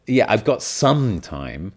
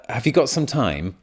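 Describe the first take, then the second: First: Slow, reluctant stretch on "some"; stress on some. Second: Said in the usual way. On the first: Shown as a demonstration. Answering a request for time, drawn-out "some". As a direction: drag out "some" to show time is limited. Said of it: "especially with your pronunciation". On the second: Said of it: "Another example".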